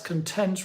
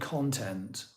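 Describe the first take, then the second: First: The stress is on the second syllable. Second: The stress is on the first syllable. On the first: It names a feeling of being satisfied. "That's content rather than" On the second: It names material or subject matter. "rather than content"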